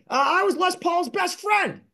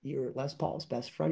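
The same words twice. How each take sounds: First: Quoted old friend, voiced much higher; imitating Jimmy. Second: Soft, much quieter echo of his words; stunned echo. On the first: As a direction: proudly announce it in his voice, pitched up. Retelling meeting Jimmy, quoting him. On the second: Retold or imitated. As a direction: repeat it back, hushed in disbelief. Own disbelieving echo of Jimmy.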